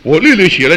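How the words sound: It is said in a proud, boastful tone. The writer boasts of deep understanding. The speaker calls it wrong. "如果这样讲继续很骄傲啊"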